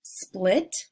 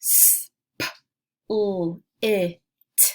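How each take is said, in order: First: Said in the usual way. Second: Each sound of "split" isolated. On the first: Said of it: "blend the word together". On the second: Shown as a demonstration. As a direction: split broken into separate sounds s, p, l, i, t. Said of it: "I'll say each sound".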